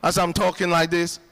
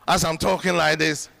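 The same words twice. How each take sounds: The two takes are said the same way.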